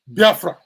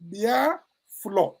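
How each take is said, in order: First: The name ends with a 'fra' sound. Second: The name ends with a 'flo' sound. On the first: The form foreigners made of the name. "The Portuguese mispronounced it to be um" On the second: The original local name meaning undone soup. "So his soup is Bia flour"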